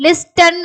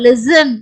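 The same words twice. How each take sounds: First: லிஸ்டன் with the T sounded, "lis-tan"; wrong pronunciation. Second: லிசன் as "lis-an", S only; silent T. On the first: Teacher showing what we don't read, லிஸ்டன் with a spoken T. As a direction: pronounce the T in லிஸ்டன். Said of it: "அப்படின்னு நம்ம படிக்க மாட்டோம்". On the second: Teacher showing how to read it, லிசன் with silent T. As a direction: drop the T in லிசன். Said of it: "எப்படி படிக்கணும்?". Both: Shown as a demonstration.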